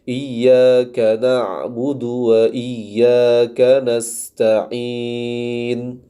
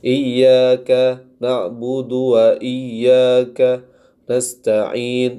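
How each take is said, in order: First: The phrase flows on without any pause. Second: A short pause breaks up the phrase. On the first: The speaker calls it right. "Jadi dibaca tetap mengalir" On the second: The speaker calls it wrong. "seperti diberikan jeda"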